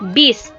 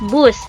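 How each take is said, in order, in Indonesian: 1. Kata ini memiliki vokal i. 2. Kata ini memiliki vokal u. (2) "Contoh dari kosakata baku"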